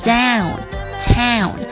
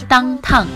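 First: The 'ow' vowel is full before the nasal. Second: The 'ow' vowel is cut short before the nasal. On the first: The speaker calls it right. "把你的元音ow 那块发好，然后再加鼻音就可以了" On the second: The speaker calls it wrong. "我们不要发成downtown，不要这么发啊"

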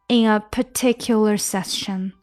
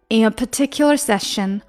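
First: The phrase is spoken at a slower pace. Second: The phrase is spoken at a faster pace.

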